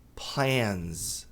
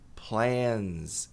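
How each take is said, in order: No difference in how they are said.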